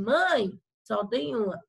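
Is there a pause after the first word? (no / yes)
yes. There is a pause after the first word. Someone tells the mother there is only one. "aqui ele está dizendo para a mãe que só existe uma"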